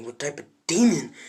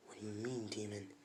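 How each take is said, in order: First: Loud outburst on "demon"; acted, louder challenge; alarmed demand. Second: Low, hushed question; quiet acted confusion; puzzled reply. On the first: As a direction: burst out at the last word. Opponent alarmed at failed quirk. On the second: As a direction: ask it very softly, taken aback. Deku answers the accusation.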